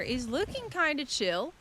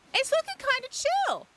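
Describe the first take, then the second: First: Said in the usual way. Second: High squeaky. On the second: Pretend. Same phrase squeaked very high.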